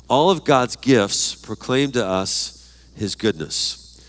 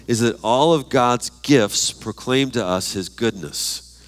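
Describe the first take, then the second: First: Slow dictation. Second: Said in the usual way. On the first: Shown as a demonstration. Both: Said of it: "next fill in the blank".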